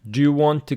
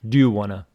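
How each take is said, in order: First: Want to is said fully, without reduction. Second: Want to is reduced to wanna. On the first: "He used want to without reduction" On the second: "It could be do you wanna?"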